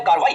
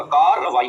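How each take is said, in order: First: Said in the usual way. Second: कार्रवाई broken out as "kaar-ra-vai", louder; doubled r. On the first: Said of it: "उसमें दो दफा रे इस्तेमाल होगा". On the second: Shown as a demonstration. Teacher showing that re comes twice, doubled r. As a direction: hold the double "r" in कार्रवाई firmly. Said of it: "दो दफा रे इस्तेमाल होगा".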